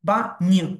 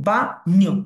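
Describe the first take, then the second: No difference in how they are said.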